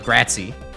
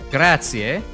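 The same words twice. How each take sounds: First: The final vowel is dropped from the word. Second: Every vowel is pronounced, including the final one. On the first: This is how Italian Americans say it. "they won't ever, you know, do a grazie" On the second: This is how people from Italy say it. "they will go through the whole letters of grazie"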